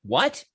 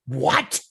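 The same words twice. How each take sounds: First: Mildly puzzled, rising question; taken aback. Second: Mock-affronted rising question; affronted shock. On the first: Retold or imitated. Son answers the woman who insulted his mother, taken aback. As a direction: ask it as if you misheard, imitating surprise. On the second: Woman reacts to being sworn at in the bar, affronted. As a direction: imitate her mild outrage at the comeback.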